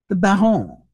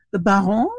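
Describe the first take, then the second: First: Put-on French-accented, falling and composed; resume with French vowels and a falling tune; slight French accent. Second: Put-on French-accented, rising and left hanging; slight French accent. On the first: Visitor patiently resuming his message, slight French accent. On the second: Visitor cut off by Hughie, slight French accent. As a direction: begin with French vowels, as if about to go on. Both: A narrator's reading. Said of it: "in a slight French accent".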